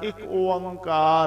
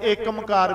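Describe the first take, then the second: First: It begins with 'ik' followed by 'onkar'. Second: It begins with 'ekam' followed by 'kar'. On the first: "ਇਹਦਾ ਉਚਾਰਨ ਇੱਕ ਓੰਕਾਰ ਹੈ" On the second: "ਬਹੁਤੇ ਏਕਮਕਾਰ ਵੀ ਪੜ੍ਹਦੇ ਨੇ"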